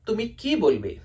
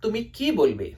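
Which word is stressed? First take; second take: ki; ki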